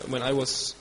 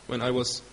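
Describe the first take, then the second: No difference in how they are said.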